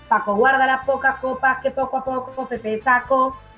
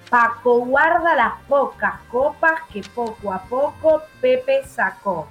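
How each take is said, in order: First: It is said fast. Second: It is said at a normal pace.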